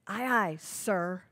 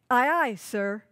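First: The stress is on the last word, sir. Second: The stress is on the first word, aye.

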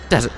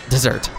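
First: The stress is on the first syllable. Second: The stress is on the second syllable. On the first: The sandy dry land is meant. The speaker calls it right. "Wait, desert" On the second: The sweet after-meal dish is meant. The speaker calls it wrong. "not desert"

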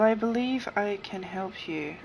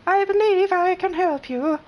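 First: It is read in the speaker's normal voice. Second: It is read in a put-on character voice.

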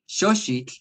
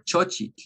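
First: Both consonants are said as 'sh' sounds. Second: Both consonants are said as 'ch' sounds. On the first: "make everything an X" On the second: "make everything a CH"

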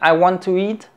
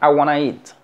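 First: Both words 'want to' are said in full. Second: 'Want to' is reduced to one word, 'wanna'. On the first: "en vez de decir I want to eat" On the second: "Es muy común, ... decir I wanna eat"

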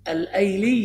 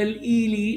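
First: The vowel after the article is 'a'. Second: The vowel after the article is 'i'. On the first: The speaker calls it right. "كله بفتح الهمزة" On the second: The speaker calls it wrong. "لا"

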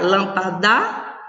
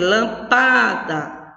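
First: The stress is on the last syllable. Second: The stress is on the middle syllable. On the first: "Não pode ser o da. Eu não posso pronunciar lampadá? Não posso" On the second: "não pode ser o pá, eu não vou dizer lampada"

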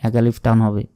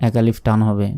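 No difference in how they are said.

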